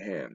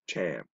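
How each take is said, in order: First: The name starts with a soft h sound. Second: The name starts with a harsh ch sound. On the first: This is not how the people themselves say it. The speaker calls it wrong. "They don't say it Ham" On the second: This is how the people themselves say it. The speaker calls it right. "they call it Cham"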